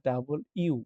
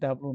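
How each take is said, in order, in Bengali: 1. অক্ষরের নামটি দুটি শব্দ হিসেবে বলা হয়, ডাবল ইউ। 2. অক্ষরের নামটি দুটি দ্রুত দলে চেপে বলা হয়। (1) "না ডাবল ইউ" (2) "ডাব্লু না"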